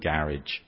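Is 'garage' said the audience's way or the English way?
English way. It is said in an English accent. "In England"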